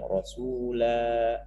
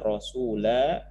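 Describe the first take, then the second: First: The final vowel is long. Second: The final vowel is short. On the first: The reading stops on this word. "ketika berhenti ... jadi bacanya panjang" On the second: The reading continues into the next word. "dibaca terus, maka alifnya itu tidak berfungsi"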